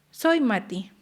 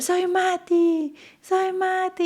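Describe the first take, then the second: First: Said in the usual way. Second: Much higher, slow, drawn-out mock yell; retold excited shout. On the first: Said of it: "Mati empieza y me dice". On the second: Mother imitating her son shouting his name, excited. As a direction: stretch it out high like a thrilled child. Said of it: "y empezó a gritar".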